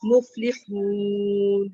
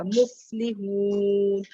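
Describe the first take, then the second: First: مفلحون very slow: breathy f, then a throaty h; tajweed demo; breath then throat ha. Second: مفلحون very slow, a whispered f sound; tajweed demo; breathy fa in مفلحون. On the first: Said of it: "پہلے ہمس آئے گا اور پھر ہا کی آواز آئے گی". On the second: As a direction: stretch مفلحون and let the fa breathe out. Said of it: "فا کے اوپر جو ہے نا ہمس آئے گا". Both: Shown as a demonstration.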